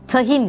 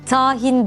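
First: The first a vowel is kept short. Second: The first a vowel is drawn out long. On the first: The speaker calls it right. "şeklinde a sesini kısa telaffuz etmemiz gerekir" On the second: The speaker calls it wrong. "tahin değil"

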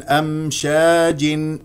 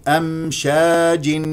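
No difference in how they are said.

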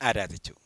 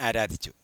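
The two takes are said the same way.

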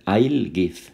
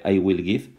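First: The two words are said as one contracted syllable. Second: The two words are said in full. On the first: "podrías poner I'll give" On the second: "en vez de I will give"

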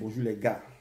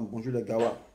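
First: The last word is said short and plain. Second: The last word is stretched out long.

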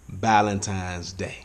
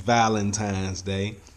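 First: The first word begins with a B sound. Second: The first word begins with a V sound. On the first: The speaker calls it wrong. "throw that B in there and take that V off" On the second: The speaker calls it right. "Y'all know good and as well it's Valentine's Day"

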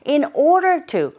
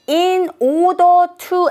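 First: The d in order is nearly silent. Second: The d in order is clearly pronounced. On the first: The speaker calls it right. "D 사운드가 거의 안 들리고 거의 R 소리에 가깝게 발음이 된다" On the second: The speaker calls it wrong. "in order to enter가 아니라"

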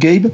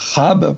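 First: The name starts with a plain hard g. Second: The name starts with a throaty guttural sound. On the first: This is a simplified everyday pronunciation. "Mais bon, on va dire Gabe" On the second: This is the original Dutch pronunciation. "normalement, ça se prononce Rab parce que c'est hollandais"

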